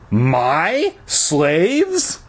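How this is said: The stress is on the word my.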